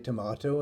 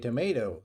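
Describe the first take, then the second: First: It is said with a British pronunciation. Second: It is said with an American pronunciation.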